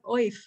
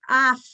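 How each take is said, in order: First: The word is said with an oy vowel. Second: The word is said with an ah vowel. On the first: This follows the spelling rather than native speech. The speaker calls it wrong. "But it's really not oif" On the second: This is an accepted traditional pronunciation. The speaker calls it right. "you have a choice of pronunciation"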